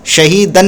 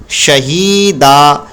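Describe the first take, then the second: First: शहीदन said with a final न; the wrong way, ending शहीदन in न; wrong nunation. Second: शहीदा ends on a long आ, no नून; long a ending. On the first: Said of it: "नहीं पढ़ेंगे". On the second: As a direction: stop on a drawn-out आ in शहीदा. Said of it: "तो पढ़ेंगे शहीदा". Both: Shown as a demonstration.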